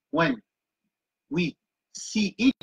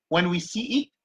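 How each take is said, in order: First: Slow "when", a pause, then "we see it"; teacher repeating the phrase for learners; slow repeated phrase. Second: Said in the usual way. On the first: Shown as a demonstration. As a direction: break the phrase apart and say it slowly.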